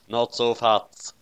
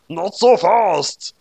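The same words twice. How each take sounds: First: Said in the usual way. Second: High, slow loud taunt; loud villain taunt. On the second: A narrator's reading. Beyond mocks L's line, loud slow taunt. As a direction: hurl it back mockingly.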